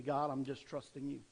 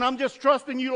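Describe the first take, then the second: First: Soft, quiet, humble "trusting you"; quiet sincere prayer. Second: Loud, higher, pushy "trusting" said as a demand; mock demanding prayer. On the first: Retold or imitated. Believer quietly handing worries to God. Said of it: "Or you could say". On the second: Selfish believer loudly demanding from God. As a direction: push the word trusting at God, loud and high. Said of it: "They're saying".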